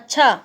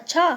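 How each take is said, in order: First: It is said in an angry tone. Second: It is said in a surprised tone. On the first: The listener is threatening a reaction. "गुस्से में बोलेंगे" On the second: The listener is astonished. "आश्चर्य से बोलेंगे"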